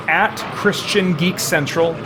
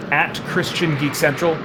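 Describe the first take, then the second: No difference in how they are said.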